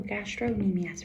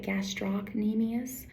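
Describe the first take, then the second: First: The C sound is shortened and dropped. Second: The C sound is pronounced clearly. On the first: The speaker calls it wrong. "sometimes people will shorten it" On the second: The speaker calls it right. "you can hear me pronounce that C really clearly"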